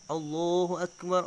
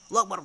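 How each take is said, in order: First: It is said at a calm, unhurried pace. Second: It is said quickly, rushed like a train. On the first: The speaker calls it right. "lafaznya harus benar juga" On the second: The speaker calls it wrong. "Janganlah ngebut kayak kereta api. ... Terlalu cepat"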